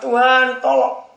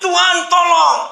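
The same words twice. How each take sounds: First: High, raised-voice plea to God; pleading prayer. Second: High, loud, drawn-out scream to God; shouted cry for help. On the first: Man hanging over a ravine prays to God, urgent plea. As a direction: pray urgently, pitched high. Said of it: "Lalu dia berdoa". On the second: Falling man in a story calls on God, desperate shout. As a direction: yell it as if falling. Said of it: "dia berteriak". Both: Acted.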